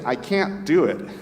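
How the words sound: It is said in an American accent. "Americans say"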